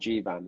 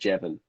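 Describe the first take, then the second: First: The name is said in its usual form. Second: The name is said with a changed vowel. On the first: The speaker calls it right. "the character's called Jivan" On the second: The speaker calls it wrong. "she pronounced it wrong, pronounced it Jevon"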